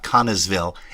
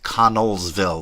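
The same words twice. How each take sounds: First: The L sound in the name is dropped. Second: The L sound in the name is sounded. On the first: The speaker calls it wrong. "It's not" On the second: The speaker calls it right. "There's L's in there"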